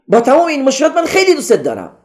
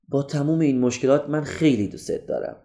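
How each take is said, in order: First: The sentence is said loudly in a higher voice. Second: The sentence is said softly in a low voice. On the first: It feels further from real affection. The speaker calls it wrong. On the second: It feels closer to real affection. The speaker calls it right.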